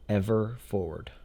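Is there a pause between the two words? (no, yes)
yes. There is a pause between the two words. The speaker calls it wrong. "that was kind of weird. Pausing in between"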